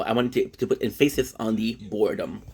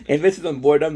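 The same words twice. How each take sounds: First: Said in the usual way. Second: Boredom hit louder and higher; stress on boredom. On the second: Shown as a demonstration. Vlogger correcting herself to viewers, stress on boredom. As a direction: lean on the word boredom to correct yourself.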